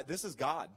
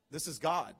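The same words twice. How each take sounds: First: Said in the usual way. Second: "This is God." louder, weight on "God"; emphatic. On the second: Shown as a demonstration. Pastor insisting the credit is God's, emphatic. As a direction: land "God" firmly as the correction.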